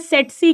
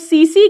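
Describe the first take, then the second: First: It is said with a t inside, like set-see. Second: It is said with s sounds, like see-see. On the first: "या सेटसी कहते हैं" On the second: "या तो सीसी कहते हैं"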